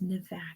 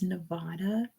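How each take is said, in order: First: It is said with an American English pronunciation. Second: It is said with a Spanish-style pronunciation. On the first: It refers to the U.S. state. "Unless it's referring to the U S state, then it's Nevada" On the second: It is the ordinary word, not the state. "Any other time you see that word, it's Nevada"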